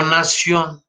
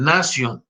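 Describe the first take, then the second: First: Nación stressed on the last syllable, na-SIÓN, drawn out; nación slowly, as na-SIÓN; wrong final stress. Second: Nasion stressed on NA, as NA-sion; correct Latin stress. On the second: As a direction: put the accent on the first syllable of nasion. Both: Shown as a demonstration. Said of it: "no nación".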